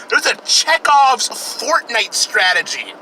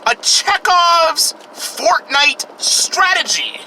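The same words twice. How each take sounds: First: Said in the usual way. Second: Drawn out, much higher, slow; dramatic echo. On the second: Shown as a demonstration. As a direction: stretch out "Chekhov's" high and slow like a trailer voice. Repeated phrase, dramatic echo.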